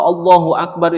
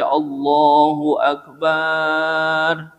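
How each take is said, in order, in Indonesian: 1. Suku kata terakhir dari "Akbar" pendek. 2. Suku kata terakhir dari "Akbar" dipanjangkan.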